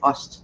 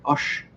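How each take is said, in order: First: It ends in a plain s sound. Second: It ends in a Swabian sh sound.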